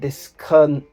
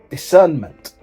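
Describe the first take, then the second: First: The word comes out garbled and clipped. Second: The word comes out clear and complete. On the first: The speaker calls it wrong. "Said that completely wrong, butchered it" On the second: The speaker calls it right. "That's what I meant to say"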